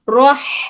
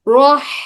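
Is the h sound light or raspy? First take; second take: raspy; raspy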